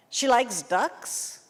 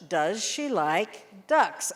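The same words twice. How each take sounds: First: Slow mocking student question with rising tune; wrong grammar demo. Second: Slow, careful Does she like ducks? falling on ducks; correct question model. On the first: Teacher mimics a Brazilian student's bad question, slowly. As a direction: imitate a student asking She likes ducks? with a rise. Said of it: "No, that's horrible English". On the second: Teacher models the correct question for students, slow and clear. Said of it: "I will accept the question when we get some good grammar". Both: Shown as a demonstration.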